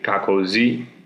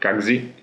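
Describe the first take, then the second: First: The middle O sound is clearly said. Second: The middle O sound is almost dropped. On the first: "they say" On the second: "almost without the O"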